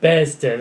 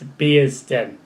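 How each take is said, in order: First: The first syllable does not sound like 'beers'. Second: The first syllable sounds like 'beers'. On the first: The speaker calls it wrong. "I think I called it Bearsden or something like that" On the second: The speaker calls it right. "It's like Beers Den"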